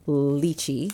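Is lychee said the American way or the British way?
American. Lychee is said the common American way. "most common for the States to say lychee"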